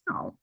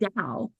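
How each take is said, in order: First: The word begins with a T sound. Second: The word begins with a D sound. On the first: The speaker calls it wrong. "I've been saying it wrong throughout this whole podcast. I've been saying" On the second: The speaker calls it right.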